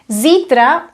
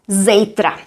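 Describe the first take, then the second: First: It is said in the standard form. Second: It is said in the colloquial form. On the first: "you probably know it means tomorrow" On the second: "Zítra is a colloquial form"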